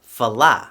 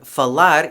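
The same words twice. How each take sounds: First: The final R is not pronounced. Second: The final R is a light tap.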